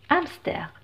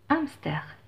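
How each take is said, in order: No difference in how they are said.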